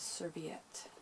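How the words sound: It is said with an American pronunciation. "the American pronunciation is serviette"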